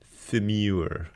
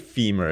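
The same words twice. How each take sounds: First: The word ends in a 'mure' sound, like demure. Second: The word ends in a plain, short 'mer' sound. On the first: The speaker calls it right. "we have to call it the femur. I think that sounds better" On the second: The speaker calls it wrong. "if you just say femur, it doesn't do it a lot of justice"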